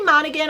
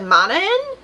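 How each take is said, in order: First: The g sound is pronounced in the middle. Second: The g sound is left out in the middle. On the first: "I say Monaghan" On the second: "you don't pronounce the G"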